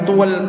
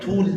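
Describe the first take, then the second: First: The syllable has an added vowel glide, 'tual'. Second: The syllable is a single short 'tul'. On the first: The speaker calls it wrong. "Hati-hati jangan sampai tual" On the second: The speaker calls it right. "alif lamnya tarik"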